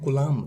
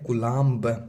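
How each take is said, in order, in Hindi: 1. शब्द m पर खत्म होता है, b नहीं। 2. शब्द के अंत में b साफ़ सुनाई देता है। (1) "बोलते हैं कुलाम" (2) "लिखा जाता है कुलाम्ब"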